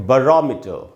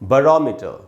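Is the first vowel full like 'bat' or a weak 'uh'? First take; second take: weak; weak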